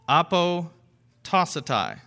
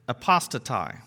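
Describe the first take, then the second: First: The word is said at a slow pace. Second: The word is said at a quick pace.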